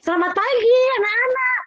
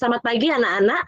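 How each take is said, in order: First: It sounds playful and animated, like addressing small children. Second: It sounds composed and professional, like addressing teenagers. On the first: It suits very young children. "Ketika saya di T K saya bilang" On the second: It suits older students. "ke anak S M A saya lebih ... Tetap sikap profesional"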